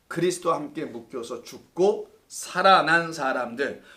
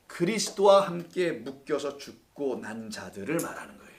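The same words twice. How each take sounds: First: Slow, with "살아난" pressed and lifted; stress on 살아난. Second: Said in the usual way. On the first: Shown as a demonstration. Pastor corrects himself to stress "살아난" for the class. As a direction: lean on "살아난", slowing the line.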